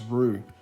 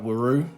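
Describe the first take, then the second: First: The name sounds just like 'roo' in kangaroo. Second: The name has an extra sound before 'roo'. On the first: The speaker calls it right. "it's actually pronounced Roo, as in kangaroo" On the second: The speaker calls it wrong. "It's easy to mispronounce it"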